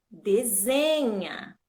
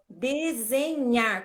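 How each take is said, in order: First: Desenha slow, long stressed ZE, NHA falling away; tônica no ZE. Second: Desenhar slowly stretched, final NHAR stressed with R; tônica no NHAR. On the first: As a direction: stretch the middle ZE of desenha. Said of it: "A sílaba mais forte passa a ser o Z". ("desenha" devagar, com ênfase no ZE) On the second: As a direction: read desenhar slowly, weight on the last syllable. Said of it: "É o nhar". ("desenhar" pausado, com ênfase no NHAR) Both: Shown as a demonstration.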